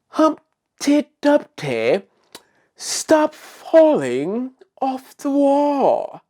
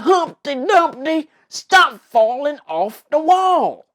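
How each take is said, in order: First: It is said in a sophisticated accent. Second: It is said in a country accent. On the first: "in a sophisticated way" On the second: "that was my very best of voicing a country voice"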